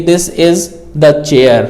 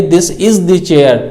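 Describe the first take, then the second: First: "the" said as an unstressed "thuh" in "this is the chair"; "the" reduced to "thuh", no stress, unhurried; weak form the. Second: "the" said as a full, stressed "thee" in "this is the chair"; "the" given weight as a long "thee"; strong form the. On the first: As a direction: slip through "the" as a light "thuh", slowly. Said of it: "हम इस पे stress नहीं दे रहे हैं". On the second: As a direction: lean on "the" and say it "thee". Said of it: "बड़े stress". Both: Shown as a demonstration.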